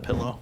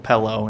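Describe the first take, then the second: First: The first vowel sounds like 'ih', as in 'pill'. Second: The first vowel sounds like 'eh', as in 'pellow'. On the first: "instead of" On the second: "I would also do the E sound there too"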